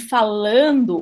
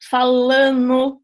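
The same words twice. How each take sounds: First: The ending is said fully with a d sound. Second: The d sound is dropped from the ending. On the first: "No lugar de falando" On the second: "as pessoas falam o quê?"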